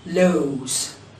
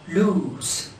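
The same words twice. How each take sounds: First: The vowel sounds like the letter name O. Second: The vowel is a short oo sound. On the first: The speaker calls it wrong. "we cannot pronounce this word as lose" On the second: The speaker calls it right. "We pronounce it lose"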